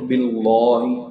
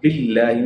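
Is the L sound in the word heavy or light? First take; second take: heavy; light. First: The L sound is heavy and full. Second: The L sound is light and thin. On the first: The speaker calls it wrong. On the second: The speaker calls it right. "we need to recite it as low and as light"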